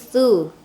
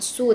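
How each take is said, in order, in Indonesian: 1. Konsonannya dibuat dengan ujung lidah menyentuh gigi seri depan. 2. Konsonannya adalah bunyi s desis biasa. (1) "ujung lidah bertemu dengan gigi seri atas depannya su" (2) "bukan su"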